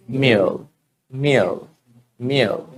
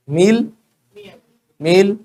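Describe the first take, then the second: First: Meal as low, falling "mee-uhl"; English dark L. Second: Meal as high, rising "meel"; plain Indian L. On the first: Teacher leads everybody in repeating, meal as "mee-uhl". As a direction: let meal glide down into a dark L. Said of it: "it's meal". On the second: Teacher shows learners the old way, meal as rising "meel". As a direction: say meal straight, no glide, tune going up. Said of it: "तो meal नहीं". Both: Shown as a demonstration.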